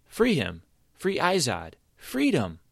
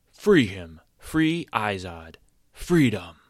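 First: Chanted, louder and rising higher cry; chanted, call it out as ordered; shouted chant. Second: Loud, slow chant of the words; scream. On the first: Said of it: "Lance followed the last step". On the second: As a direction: yell each cry out. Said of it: "Now stand on me and scream". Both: A narrator's reading.

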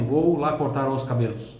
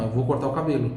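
First: "Vou lá cortar os cabelos." said a little slowly as the odd form; wrong usage. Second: Said in the usual way. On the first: Shown as a demonstration. Teacher shows the unnatural plural "cabelos" slowly. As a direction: model the plural "cabelos" as what Brazilians don't say. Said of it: "Eu não falo assim". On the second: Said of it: "Eu falo assim".

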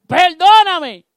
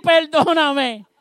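First: "perdóname" cried out even higher and much louder; a wail for mercy; wailing plea. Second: "perdóname" drawn out very slowly, high and loud; slow pleading. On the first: Simi begging David after cursing him: wailing loud cry. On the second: Simi to the king he cursed: slow loud plea. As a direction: stretch the plea out, begging. Simi begs David's pardon. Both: Acted.

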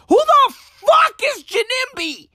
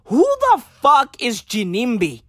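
First: Shrieking who-is-this outburst; exasperated shout. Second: Said in the usual way. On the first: Acted. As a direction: scream the question at the world. Repeated rant question, exasperated.

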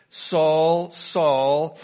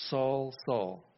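First: Loud, ringing call of the name; heavenly call. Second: Said in the usual way. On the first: Acted. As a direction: call him out from heaven, full voice. Jesus calls Saul from heaven.

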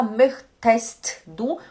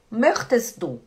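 First: "möchtest du" with the final t fully sounded; over-separated wrong way. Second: "möchtest du" run together as "möchtes-du"; linked, silent t. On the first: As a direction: split "möchtest du" into separate words, crisp t. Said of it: "você não fala möchtest du". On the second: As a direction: drop the last t of "möchtest du". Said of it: "O T a gente não pronuncia ele". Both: Shown as a demonstration.

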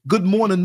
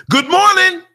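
First: Said in the usual way. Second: High, loud call across the snow. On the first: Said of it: "It'll sound like this". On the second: Shown as a demonstration. Greeting a neighbour over muffling snow: loud high call. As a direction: project the greeting far down the block. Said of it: "So you gotta say".

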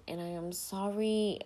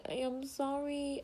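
First: Said in the usual way. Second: Pleading high sorry; stretched pleading apology; high, slow sorry. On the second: Real, not acted. Repeated apology higher.

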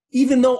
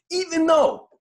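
First: Said in the usual way. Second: Squeaky high break. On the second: Real, not acted. Sudden emphatic restart.

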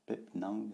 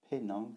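First: "Pep Nang" with the P sounded before "Nang"; final P kept. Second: "Penang" with open "Pe" flowing into "nang"; final P dropped. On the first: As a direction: close the lips on the end of "Pep" in "Pep Nang". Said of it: "un petit peu difficile à prononcer". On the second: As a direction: say "Penang" with no second P. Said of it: "ça devient". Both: Shown as a demonstration.

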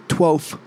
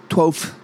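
The two takes are said the same way.

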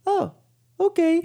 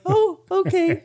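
First: High squeaky oh okay. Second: High squeaky laughing oh okay. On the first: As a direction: squeak it out, surprised. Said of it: "Did you use that same squeaky voice". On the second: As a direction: squeak it like a surprised kid. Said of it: "that same squeaky voice". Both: Retold or imitated.

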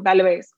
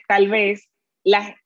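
First: Said in the usual way. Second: Slow, stretched "tal vez la", searching for words; hesitant, slowed "tal vez"; drawn-out hesitation. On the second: Real, not acted. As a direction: draw out tal vez while thinking. Interviewer hedging a question.

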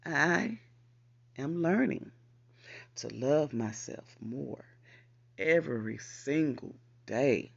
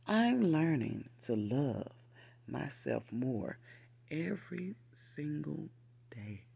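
First: Louder, slow, word by word; for the people in the back. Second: Said in the usual way. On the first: Shown as a demonstration. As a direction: project to the back row. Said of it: "repeat that for the people in the back". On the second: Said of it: "I'm gonna repeat that".

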